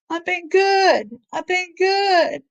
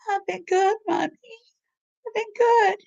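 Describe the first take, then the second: First: It is said in the speaker's normal voice. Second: It is said in a little girl's voice.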